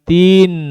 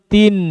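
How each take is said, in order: First: The syllable is drawn out and lengthened. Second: The syllable is short and said directly. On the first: The speaker calls it wrong. "bukan tin" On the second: The speaker calls it right. "langsung tin"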